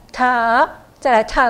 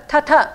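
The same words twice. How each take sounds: First: First 特 held long and rising, then 特 falls; long linking sound. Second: 特特 as two short equal beats; no turn between syllables. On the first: Teacher showing the clearer way, first 特 long, second falling. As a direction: stretch the first 特 before the second. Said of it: "就一个中间的长音的二". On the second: Teacher showing what sounds bad, 特特 short and unlinked. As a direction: run 特特 together with no long sound between. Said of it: "特特就不好听了". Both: Shown as a demonstration.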